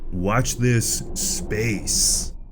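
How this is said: It is said in Trapper's awkward voice.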